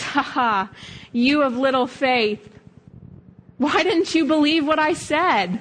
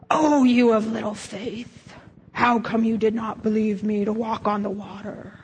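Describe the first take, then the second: First: Amused, delighted Jesus teasing, higher at the end; a hint of a chuckling, fond Jesus; lightly voiced delighted Jesus; happy laughing Jesus. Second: A touch of a scolding Jesus; lightly voiced stern Jesus rebuke; frowny mad Jesus. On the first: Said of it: "he's smiling and he kinda laughs". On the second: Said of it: "the frowny face Jesus, who's mad".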